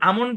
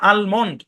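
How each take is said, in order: First: The L sound is left silent. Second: The L sound is clearly pronounced. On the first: "যদি আমন্ড বলেন তাও শুদ্ধ" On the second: "আর যদি বলেন আলমন্ড তাহলেও শুদ্ধ"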